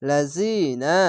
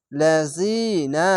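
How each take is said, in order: First: লাযিনা recited with the long ই held; Quranic recitation. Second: লাযিনা very slow, the long vowel drawn out; slow recitation. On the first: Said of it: "এক আলিফ টেনে পড়বেন". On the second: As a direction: stretch লাযিনা by one alif. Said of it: "জেরের পাশে ইয়া সাকিন". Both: Shown as a demonstration.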